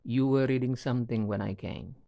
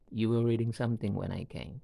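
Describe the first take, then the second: First: Said in the usual way. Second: "You were reading something when I came." said as a statement that lifts at the end into a question; rising question tune. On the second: Shown as a demonstration. Teacher turns a statement into a rising question. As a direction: let "came" rise to make it a question. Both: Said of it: "ending them with a rising intonation".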